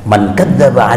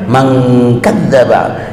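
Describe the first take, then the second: First: The n is short and plain, without nasal hold. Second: The n is nasalized and held before the k. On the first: It is read as ordinary hadith, without Quranic recitation rules. The speaker calls it right. "kan gitu tuh kalau di apa di T V Madinah" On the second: It is read with Quranic recitation rules. The speaker calls it wrong. "kalau pakai tajwid lo kan man kadzdzaba ya lo kayaknya gak enak"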